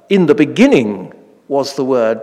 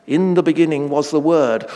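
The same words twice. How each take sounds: First: "beginning" pushed to the front, stressed; Greek-style stress on "beginning". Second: Said in the usual way. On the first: Shown as a demonstration. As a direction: lean on "beginning", let "Word" fall. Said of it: "they tend to put the emphatic words at the start". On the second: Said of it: "or rather".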